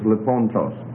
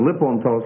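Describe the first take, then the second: First: The stress is on the second syllable. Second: The stress is on the first syllable. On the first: The accent has shifted one syllable over. The speaker calls it right. "it's lipontos" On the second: This is where the usual rules put the accent. The speaker calls it wrong. "Instead of lipontos, like you would expect it"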